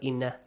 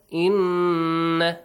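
First: The double n is short without nasal hold. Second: The double n is held long and nasal. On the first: The speaker calls it wrong. "not inna" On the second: The speaker calls it right. "you should extend the sound for two beats, and also a nasal sound"

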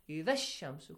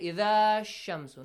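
First: The final vowel of idha is dropped quickly. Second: The final vowel of idha is drawn out long. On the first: The speaker calls it right. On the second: The speaker calls it wrong. "You do not say idha ash-shamsu"

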